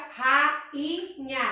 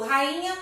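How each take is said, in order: First: Rainha broken into ra, i, nha; syllable by syllable. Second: Said in the usual way. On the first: Shown as a demonstration. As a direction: say rainha in three separate beats. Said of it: "Três sílabas". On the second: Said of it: "a gente tem um hiato".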